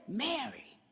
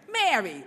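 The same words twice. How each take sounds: First: Soft tender call. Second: Exasperated. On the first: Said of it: "the moment he says". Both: Retold or imitated.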